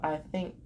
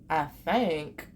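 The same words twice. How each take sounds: First: The vowel in think is a short i. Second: The vowel in think sounds like the a in thank. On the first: "instead of I think" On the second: "some people pronounce think as thank"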